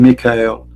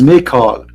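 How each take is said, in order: First: The last syllable sounds like 'el'. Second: The last syllable sounds like 'al'. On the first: This is the modern Hebrew form. The speaker calls it wrong. "not really Michael" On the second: This is the ancient Hebrew form. The speaker calls it right. "It is Michael"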